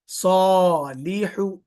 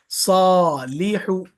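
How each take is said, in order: First: सॉलिहु slowly, lips unrounded on सॉ and लि and rounded only on हु; stretched reading. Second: सॉलिहु slowly, lips rounded only on the final हु; in सॉलिहु keep the lips flat until हु, then round them; stretched, rounded on हु. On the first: Teacher showing which letters get rounded lips. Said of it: "सौद और लाम के लिए होंठ गोल नहीं हो रहा". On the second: Teacher repeating the word after explaining the lips. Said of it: "हा के लिए गोल हो रहा". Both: Shown as a demonstration.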